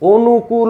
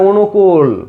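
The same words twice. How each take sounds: First: The word ends with a drawn-out final vowel. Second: The word stops on the final consonant. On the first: The speaker calls it wrong. "অনুকূল জীবনে কাউকে বলতে শুনছো না" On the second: The speaker calls it right. "বলে অনুকূল, অনুকূলে গিয়ে থেমে যায়"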